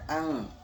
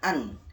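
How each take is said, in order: First: The n sound is blurred and nasal. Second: The n sound is said clearly. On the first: The speaker calls it right. "tapi dibaca ang" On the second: The speaker calls it wrong. "Tidak dibaca an"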